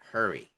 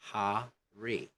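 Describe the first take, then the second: First: The R is blended into the vowel. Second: The R is kept separate from the vowel. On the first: The speaker calls it wrong. "Not hurry" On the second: The speaker calls it right. "don't blend R with a vowel. Say hurry"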